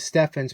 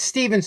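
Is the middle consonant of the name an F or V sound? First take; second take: F; V. First: The middle consonant is an f sound. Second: The middle consonant is a v sound. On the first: The speaker calls it wrong. "Some people we used to pronounce as Steffens" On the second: The speaker calls it right. "but it's Stevens and Company"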